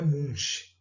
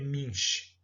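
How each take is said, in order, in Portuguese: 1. A vogal soa como 'oo'. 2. A vogal soa como 'ee'. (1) "não é Munch" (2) "o U com o trema tem som de I"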